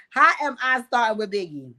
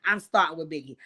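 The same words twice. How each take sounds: First: Louder, indignant question; incredulous comeback. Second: Said in the usual way. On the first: Real, not acted. Host answering her brother's chat accusation, incredulous. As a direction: throw the accusation back in disbelief. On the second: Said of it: "look what he's saying in the chat".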